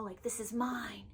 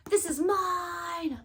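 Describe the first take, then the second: First: Softer, slow possessive murmur; a hushed, playful claim; mock possessive. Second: Slow, louder and higher claim with the weight on this; a playful, hammed-up possessive cry; mock possessive shout. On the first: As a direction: hoard it quietly like a treasure. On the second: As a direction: shout it like guarding a treasure. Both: Jokingly wants to gatekeep the book.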